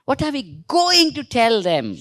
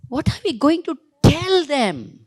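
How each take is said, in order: First: Slow, stress on "going"; teacher modelling intonation on "going"; intonation drill. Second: Teacher modelling stress on "tell"; intonation drill. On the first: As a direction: lean on "going", slow and careful. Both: Shown as a demonstration. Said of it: "you have to intonate".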